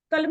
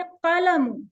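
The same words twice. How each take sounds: First: "कलम" cut short as ka-lam, no -un; dropped ending. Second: "कलमुन" as qa-la-MUN, louder; full ending. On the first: Teacher shows what not to say, dropped ending. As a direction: stop "कलम" on the m. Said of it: "कलम नहीं कह देना". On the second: Teacher shows the right word, full ending. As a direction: say all three beats of "कलमुन", ending in -un. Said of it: "इसको भी आपने कलमुन". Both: Shown as a demonstration.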